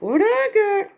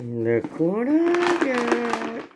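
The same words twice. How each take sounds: First: High, excited showing off. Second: Slow, drawn-out teasing. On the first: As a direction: pitch it up, eager. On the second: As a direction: stretch it out slowly. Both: Acted. Teasing, showing off food.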